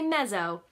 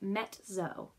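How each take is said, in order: First: The middle consonant sounds like a buzzing 'z'. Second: The middle consonant sounds like 'ts' in pizza. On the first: The speaker calls it wrong. "you don't say mezzo" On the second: The speaker calls it right. "you say mezzo, almost like pizza"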